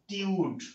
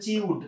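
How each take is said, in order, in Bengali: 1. সিলেবলটা 't' শব্দ দিয়ে শুরু। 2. সিলেবলটা 'ch' শব্দ দিয়ে শুরু। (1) "উচ্চারণটা হবে কি ভাই টিউড" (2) "এটাকে উচ্চারণ অনেকে বলেন হচ্ছে চিউড"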